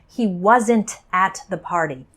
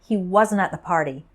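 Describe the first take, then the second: First: The final T in wasn't is clearly pronounced. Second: The final T in wasn't nearly disappears. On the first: "I don't say" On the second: "the final T almost disappears"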